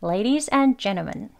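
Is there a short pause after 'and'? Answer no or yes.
yes. A slight pause comes right after 'and'. "아까는 ladies and 여기서 은 하고 살짝 멈추죠"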